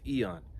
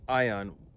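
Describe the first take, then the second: First: It is said with the modern pronunciation. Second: It is said with the ancient Greek pronunciation. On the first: "in modern pronunciation it's eon" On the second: "It's the Greek meaning, well, well ion"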